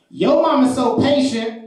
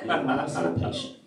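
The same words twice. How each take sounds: First: High, slow, emphatic setup; little girl's roast. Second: Soft, understated repeat; quiet callback. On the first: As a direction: imitate a kid announcing a joke, drawn out. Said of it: "looks at this girl and she says". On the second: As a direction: repeat it softly to yourself after the laugh. Comedian repeats the line to himself. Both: Retold or imitated.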